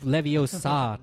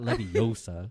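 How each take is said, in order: First: Leviosa slowed, with the stress on final SA; stress on last syllable. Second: Leviosa slowed, with the stress on O: levi-O-sa. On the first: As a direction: land on the end of Leviosa: levio-SA. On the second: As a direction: lean on the middle of Leviosa, levi-OH-sa. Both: Shown as a demonstration. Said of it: "not Leviosa".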